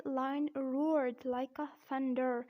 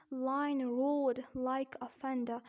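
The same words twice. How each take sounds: First: Slow American "roared" with a sounded R; American accent. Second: Slow British "roared" with no R before the D; non-rhotic British demo, slow; British accent. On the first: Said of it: "and in American accent". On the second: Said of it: "Here in British accent". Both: Shown as a demonstration.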